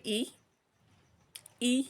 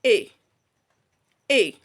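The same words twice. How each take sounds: First: E said long, like the name of the letter; the long E a learner wrongly uses. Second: E said short, as in It and Sit; a quick short i, not the long E; short i sound. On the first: Teacher showing the wrong long vowel. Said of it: "No. It is not E". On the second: Teacher modelling the short i. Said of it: "This sound says". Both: Shown as a demonstration.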